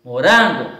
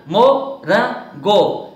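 First: Said in the usual way. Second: "morango" slowly as mo, ran, go; three separate beats on "morango", pauses between; split into syllables. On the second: Shown as a demonstration. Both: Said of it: "ter as sílabas separadas".

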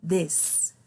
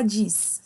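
First: "this" as "dess", short E vowel; E sound in "this". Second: "this" as "dees", with an EE; wrong vowel in "this". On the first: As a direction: say "this" with an E, not EE. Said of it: "eles têm som de E". ("this" com som de E, "dês") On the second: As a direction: say "this" with a Portuguese I. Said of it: "a gente não fala this". ("this" com som de I, "dis") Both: Shown as a demonstration.

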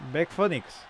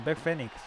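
First: "Phoenix" said as "Fónix". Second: "Phoenix" said as "Fénix". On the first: Streamer checks the wrestler's name with viewers, saying "Phoenix" as "Fónix". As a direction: say "Phoenix" with an O, "FO-niks". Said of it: "como estaba la O ahí". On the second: Streamer tries the corrected name for viewers, saying "Phoenix" as "Fénix". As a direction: say "Phoenix" with an E, "FE-niks". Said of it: "La segunda la dijiste bien". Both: Shown as a demonstration.

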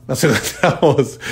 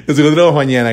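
First: Laughing through the words, slow. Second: Said in the usual way. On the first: Real, not acted. Host signing off to listeners, laughing mid-word. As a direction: let a laugh break the phrase.

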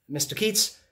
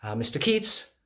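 First: Keats called up high, rising; calling out. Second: Said in the usual way. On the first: Acted. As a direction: call his name across the room.

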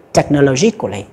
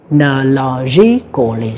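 First: Said in the usual way. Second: Technologically drawn out slowly, each of its six syllables spoken apart. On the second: Shown as a demonstration. Teacher slowly sounding out technologically for students. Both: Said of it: "sáu âm các bạn ha".

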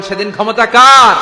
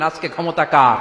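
First: Much louder, higher shouted question; shouted full out, ending in a fall. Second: Said in the usual way. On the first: Acted. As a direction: bellow the question to the crowd. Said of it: "আওয়াজ করে বলেন". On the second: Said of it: "আল্লাহ চিৎকার দিয়ে বলবেন".

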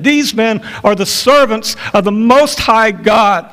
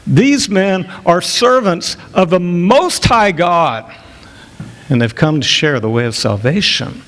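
First: Raised, high earnest cry; earnest street cry. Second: A girl mocking the apostles. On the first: Acted. Girl crying out day after day. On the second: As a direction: sneer it, drawing out each word. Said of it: "in a very mocking tone".

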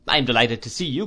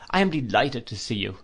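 First: Quick and bright, lifting on the I; a rushed, glad echo of the greeting; eager greeting. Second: Said in the usual way. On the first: A narrator's reading. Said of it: "he returned". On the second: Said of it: "said I, shaking hands".

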